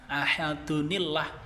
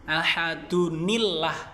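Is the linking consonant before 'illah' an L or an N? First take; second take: N; N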